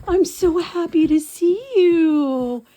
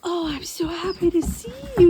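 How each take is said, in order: First: High, slow, loud cooing to the dog; stretched high dog-greeting voice; slow puppy talk. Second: High cooing at normal pace; quicker high dog-greeting voice; quicker puppy talk. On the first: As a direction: draw it out for the puppy. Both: Real, not acted.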